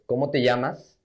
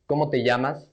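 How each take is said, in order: The two takes are said the same way.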